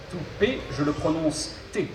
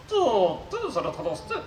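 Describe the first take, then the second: First: Said in the usual way. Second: Robot voice with garbled consonants. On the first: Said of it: "je serai son interprète". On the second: Acted. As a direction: mangle the consonants like a glitchy robot. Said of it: "souffre d'une pathologie vocale".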